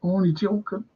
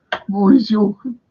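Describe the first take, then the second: First: Said in the usual way. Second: Louder and higher, pressing the joke; mock-insistent only joking; louder repeat. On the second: Shown as a demonstration. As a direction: say it again, louder.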